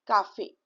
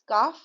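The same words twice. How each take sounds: First: Cafe in two syllables, "ka-fay"; cafe with acute accent. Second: Calf as one syllable, "kaf"; cafe without accent. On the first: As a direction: end cafe on a sounded é. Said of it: "the pronunciation will come out as". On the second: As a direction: drop the final é, leaving calf as "kaf". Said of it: "If you will not put this accent". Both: Shown as a demonstration.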